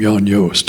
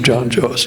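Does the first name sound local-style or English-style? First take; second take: local-style; English-style. First: The first name has the local, Jadro-like vowel. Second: The first name has the usual English vowel. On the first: This is how others tend to say the name. The speaker calls it wrong. "like people like to pronounce my name" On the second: This is the speaker's own form of the name. The speaker calls it right. "instead of"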